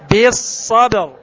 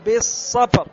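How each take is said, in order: First: The b is voiced, strong and bounced. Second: The b is weak, without voicing or bounce. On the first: The speaker calls it right. "بالصبر بالصبر هكذا" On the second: The speaker calls it wrong. "ما تقول الصبر ... خطأ"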